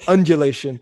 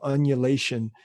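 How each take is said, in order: First: The word is said with a D sound. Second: The word is said without a D sound. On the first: The speaker calls it right. "There you go" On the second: The speaker calls it wrong. "you forgot the D"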